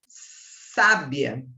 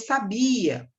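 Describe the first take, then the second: First: The stress is on the first syllable. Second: The stress is on the middle syllable. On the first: It means 'wise'. "Qual é a sílaba tônica? É o sa" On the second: It means 'knew', from the verb saber. "Qual é a sílaba tônica? É o bia"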